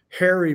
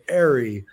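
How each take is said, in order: First: The word begins with an h sound. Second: The word begins without an h sound.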